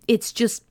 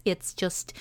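First: Said in the usual way. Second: Goofy put-on voice. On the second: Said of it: "it's an accent when [name] feels like being a little goofy".

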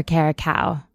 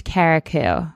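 First: Caracau, last syllable rhyming with "cow"; alternative pronunciation. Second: Carriacou, last syllable rhyming with "too"; unsure pronunciation. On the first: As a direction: say Caracau with an "ow" ending. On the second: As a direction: say Carriacou with an "oo" ending. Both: Shown as a demonstration. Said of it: "Not sure how to pronounce it".

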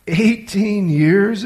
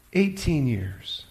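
First: Louder, slowly stretched astonished question; can't believe what he's just heard; astonished exclamation. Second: Said in the usual way. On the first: Acted. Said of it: "exclaimed Malcolm".

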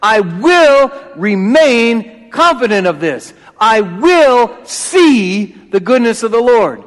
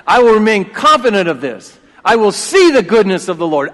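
First: WILL held long and loud, very slow; slow, emphatic: I WILL remain; stress on WILL. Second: Said in the usual way. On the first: Shown as a demonstration. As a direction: hit the word will, stretch every word. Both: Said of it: "You gotta get the emphasis on the right place".

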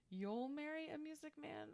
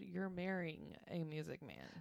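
First: High, soft and even; co-host quoting the lyric she missed, high and soft; correct lyric. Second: Said in the usual way. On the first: Shown as a demonstration. High-pitched, soft reading of the lyric. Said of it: "And I didn't hear". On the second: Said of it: "I heard".

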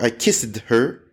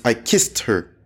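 First: Slow "kissed" as KISS-id, two syllables; wrong -ed ending. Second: "kissed" as one syllable, KIST; correct -ed ending. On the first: Teacher showing the error, extra-syllable kissed. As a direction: sound the ED in "kissed" separately. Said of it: "It's not". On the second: Teacher correcting the error, one-syllable kissed. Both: Shown as a demonstration.

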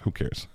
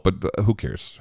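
First: "Who cares?" dropped much softer, nearly under breath; muttered aside. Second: Said in the usual way. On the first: Real, not acted. Singer shrugging off his own rambling, muttered softly.

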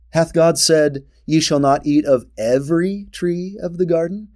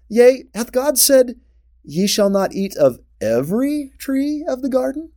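First: "God" punched, sly questioning tone ending in a rise; stress on God. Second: Raised quote, lifting toward "every tree of the garden" with a rising end; stress on the trees. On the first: Teacher rereads the serpent's question, weight on God. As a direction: hit "God" in "Hath God said" and doubt it. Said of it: "I place the emphasis of his tone in that way". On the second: Serpent's question first read with weight on the trees. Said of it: "sounds like he's drawing attention to the trees". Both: Shown as a demonstration.

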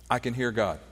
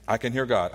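First: "I" leaned on, the rest falling away; stress on I. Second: "hear" leaned on, "I" left light; stress on HEAR. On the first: Pastor repeats his point with the weight on "I". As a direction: pastor to congregation, hitting "I" in "I can hear God". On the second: Pastor repeats his point with the weight on "hear". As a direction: pastor to congregation, hitting "hear" in "I can hear God". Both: Shown as a demonstration. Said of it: "repeats line with new stress".

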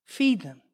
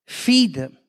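First: Low, softened repeat of the command; hushed command. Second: FEED pressed firmly at full voice, then falling; a firm, low order with weight on FEED; firm command. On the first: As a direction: let the order sink in quietly. Lord's command repeated softly. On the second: Lord's command, first take. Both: Retold or imitated.

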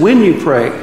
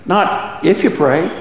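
First: "When you pray" with WHEN hit louder and falling; stress on when. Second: "not if you pray" drawn out slowly with a lift on "you"; slow, rising contrast take of "not if you pray"; slowed stress on if. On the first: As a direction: lean hard on "When", not on "you pray". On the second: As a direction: say "if" as the wrong word, slowly and lightly. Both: Shown as a demonstration.

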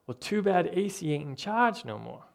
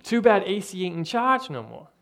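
First: Said in the usual way. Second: A light, self-admitted bad Italian mobster accent. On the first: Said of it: "the guy comes in and he's like". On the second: Pastor quoting a Home Alone mobster in a weak Italian accent. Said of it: "I'm not great at the Italian accent".

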